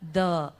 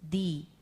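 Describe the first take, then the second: First: The vowel sounds like a short 'uh'. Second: The vowel sounds like a long 'ee'. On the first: The next word starts with a consonant. "If the word starts with a consonant, then you are using the" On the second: The next word starts with a vowel. "if the word starts with a vowel, we are going to use the"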